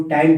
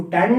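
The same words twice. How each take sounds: First: टैन with a gliding vowel, like "tain"; correct reading TAIN. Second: टैन as short "tann"; wrong reading TAN. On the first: Teacher correcting students' reading, टैन as gliding "tain". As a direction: stretch टैन into a glide before the n. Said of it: "इसको टैन पढ़ेंगे". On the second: Teacher telling students what not to read, टैन as short "tann". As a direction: say टैन with a short vowel and held n. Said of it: "इसको टैन नहीं पढ़ना है". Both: Shown as a demonstration.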